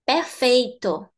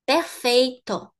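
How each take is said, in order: Both takes have the same delivery.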